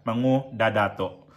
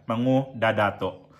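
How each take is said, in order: First: The name is said with gu-da in the middle. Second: The name is said with gu-da in the middle.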